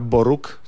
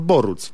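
First: The name ends with a k sound. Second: The name ends with a ts sound. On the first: The speaker calls it wrong. "nie czyta się Artura Boruk" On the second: The speaker calls it right. "tylko Artur Boruc"

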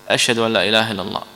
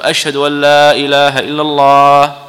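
First: The phrase is said in a low, quiet voice. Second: The phrase is said in a raised, loud voice. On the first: "بصوت منخفض" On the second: "ثم يرفع صوته ويقول"

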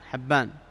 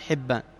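First: The first vowel is an open 'a' sound. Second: The first vowel is a close 'i' sound. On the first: It names this one particular narrator. "تنطق حبان بفتح الحاء" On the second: It names the other people with this name. "أما مثل صاحب الحديث والآخرين يقال حبان"

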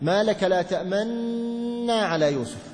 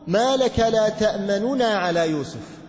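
First: The two n sounds merge into one doubled n. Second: A very quick, faint vowel separates the two n sounds. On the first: "تدغم ثم تشم" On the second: "تختلس حركة النون الأولى بسرعة"

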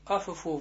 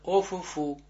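First: The first vowel sounds like 'a'. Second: The first vowel sounds like 'o'. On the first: The speaker calls it wrong. "надо не афэфу" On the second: The speaker calls it right. "а офэфу"

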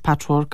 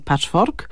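First: The word is pronounced as in English. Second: The word is pronounced as in Polish. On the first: The speaker calls it right. "wymawiane, tak jak w języku oryginału" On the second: The speaker calls it wrong. "a nie"

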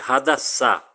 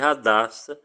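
First: The name is said in a Hebrew way. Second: The name is said in a Portuguese way. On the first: The speaker calls it right. "Essa é a pronúncia em hebraico" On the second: The speaker calls it wrong. "não fale Hadassá, você está equivocado"

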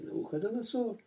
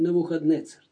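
First: The name ends with the sounds 'donosor'. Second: The name ends with the sounds 'dnetsar'. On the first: This is the usual Russian rendering of the name. "как его обычно, по-моему, переводят на русский" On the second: This is the original rendering of the name. "А мы говорим Навуходнецар, так и надо произносить"

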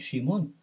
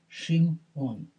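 First: The two syllables run together smoothly. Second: A slight break separates the two syllables. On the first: The speaker calls it wrong. "Не «шимон»" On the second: The speaker calls it right. "как будто там стоит твердый знак"

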